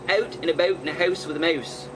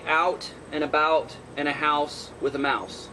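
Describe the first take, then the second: First: The vowels are said in a Canadian accent. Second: The vowels are said in a non-Canadian accent. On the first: "The the Canadians around here, they go" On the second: "I say"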